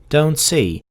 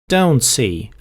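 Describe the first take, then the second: Both takes have the same delivery.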